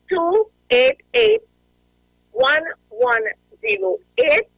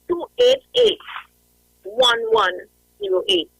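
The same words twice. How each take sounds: First: The number is said slowly. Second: The number is said fast.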